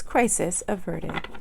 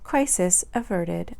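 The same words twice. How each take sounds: First: It is said in a robotic, computer-like voice. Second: It is said in a natural speaking voice.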